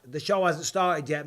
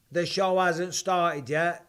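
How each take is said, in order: First: Said in the usual way. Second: Drawn out slowly, each word leaned on; slow, emphatic repeat. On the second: Real, not acted. Insisting to the viewers that the show is yet to start, slow and emphatic. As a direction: spell it out slowly so they get it.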